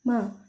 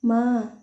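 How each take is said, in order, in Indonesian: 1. Vokal itu diucapkan pendek. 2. Vokal itu diucapkan panjang. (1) "bukan bukan dibaca ma" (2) "dibacanya agak panjang"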